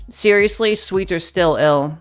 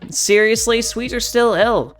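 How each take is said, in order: First: The voice sounds androgynous, between masculine and feminine. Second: The voice sounds androgynous, between masculine and feminine.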